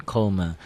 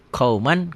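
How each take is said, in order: First: "qauma" ending in a soft ng, no clear N; N hidden as ng. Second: Said in the usual way. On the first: Shown as a demonstration. Teacher contrasts writing and reading, "qauma" with final ng. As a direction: let the end of "qauma" sink into ng. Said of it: "Tulisan dan bacaan beda". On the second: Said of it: "Ditulisnya ada N-nya".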